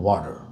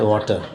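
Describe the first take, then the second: First: It is said in an American accent. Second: It is said in an Indian accent. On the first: "If you're American" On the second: "They don't say water"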